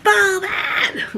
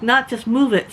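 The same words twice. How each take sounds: First: High, harsh mock shout; rude lady's yell. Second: Said in the usual way. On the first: Older lady ordering her off the deck, harsh high yell. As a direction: snap the order like a cranky old lady. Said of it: "She was like".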